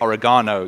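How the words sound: It is said the British way. "we say"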